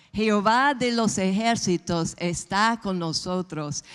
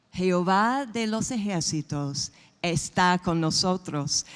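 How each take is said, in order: Both takes have the same delivery.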